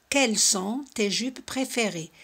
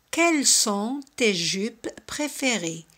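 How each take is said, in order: First: Said in the usual way. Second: Slow, careful French model question. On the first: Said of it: "teacher repeats at normal pace". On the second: Shown as a demonstration. Teacher modelling a French question slowly for students. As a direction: spell out each word slowly for learners. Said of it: "teacher models French question".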